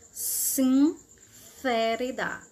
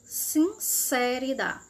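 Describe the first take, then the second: First: The c is said as a th sound. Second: The c is said as an s sound. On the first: "Na Espanha" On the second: "Na Argentina"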